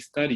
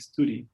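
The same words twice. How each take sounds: First: It is said with a southern British vowel. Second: It is said with a northern English vowel. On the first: "you wouldn't say study" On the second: "in the north of England, ... you would say study"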